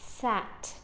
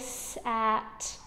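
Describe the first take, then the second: First: The sounds are blended quickly together. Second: The sounds are stretched out slowly. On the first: "and then even closer, so they're saying sat" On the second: "Say it slowly"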